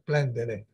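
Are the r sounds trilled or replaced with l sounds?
l sounds. The r sounds are replaced by l sounds. "loro diranno per approssimazione per un bel po' di tempo"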